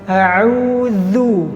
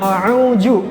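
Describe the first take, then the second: First: The middle consonant is a voiced th. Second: The middle consonant is a j. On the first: The speaker calls it right. "yang benar adalah kita menggetarkan, meletakkan ujung lidah ke gigi seri bagian atas" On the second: The speaker calls it wrong. "Biasanya jim"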